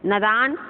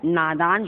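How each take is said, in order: First: "नादान" as na-daan, short first vowel; rising nə-daan for "नादान"; wrong short vowel. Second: "नादान" as naa-daan; lengthened naa in "नादान"; long first vowel. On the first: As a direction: cut the first a of "नादान" short, ending on a rise. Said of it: "नादान तो अशुद्ध है". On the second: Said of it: "नादान शुद्ध है". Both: Shown as a demonstration.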